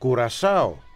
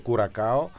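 First: The middle consonant is an s sound. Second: The middle consonant is a k sound. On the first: The speaker calls it right. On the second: The speaker calls it wrong.

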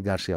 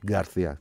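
First: The middle consonant is a hissing s sound. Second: The middle consonant is a lisped th sound. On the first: The name is said the northern Spanish way. The speaker calls it right. "Ντάνι Γκαρσία, όχι Γκαρθία" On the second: The name is said the southern Spanish way. The speaker calls it wrong. "όχι Γκαρθία"

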